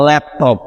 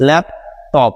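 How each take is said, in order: First: Said in the usual way. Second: "laptop" in two beats, a pause between lap and টপ; syllable by syllable. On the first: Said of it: "দেখুন কিভাবে হচ্ছে". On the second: Shown as a demonstration. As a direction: stop after lap, then start afresh on টপ. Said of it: "নতুন করে আবার বলতে". ("Laptop" শব্দটি ল্যাপ, টপ দুই ভাগে থেমে)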